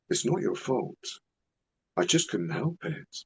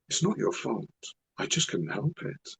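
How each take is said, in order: First: It is said in a weird, creepy put-on voice. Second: The same.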